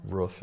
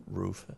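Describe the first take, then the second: First: Roof in the out-of-town way; regional pronunciation. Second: Said in the usual way. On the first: Shown as a demonstration. Town official contrasting local words, roof said the regional way. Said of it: "they would say". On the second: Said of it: "instead of roof".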